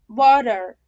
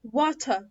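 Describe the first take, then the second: First: Louder "water" as "wodder", strong final R; American water. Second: British "water" as "wa-tuh"; British accent. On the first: Teacher drilling American examples, flapped T. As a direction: say water with a D and hard R. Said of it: "ده كده امريكان". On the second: Teacher showing how British say it, British accent. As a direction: say water British, clear T, no final R. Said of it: "البريتش بينطقوه ازاي؟". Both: Shown as a demonstration.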